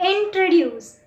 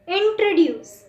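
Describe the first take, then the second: No difference in how they are said.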